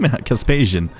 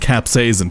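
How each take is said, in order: First: The word begins with the sounds 'casp'. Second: The word begins with the sounds 'caps'. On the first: The speaker calls it wrong. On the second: The speaker calls it right.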